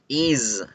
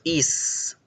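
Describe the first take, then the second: First: The word ends with a buzzing Z sound. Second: The word ends with a hissing S sound. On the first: The speaker calls it right. "es is, is, is, con Z" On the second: The speaker calls it wrong. "la pronunciación no es con S, no decimos is"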